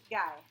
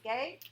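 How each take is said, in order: First: The vowel sounds like the one in 'high'. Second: The vowel sounds like the one in 'day'. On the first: This is the French reading of the name. "in French, we pronounce it Guy" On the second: This is the English reading of the spelling.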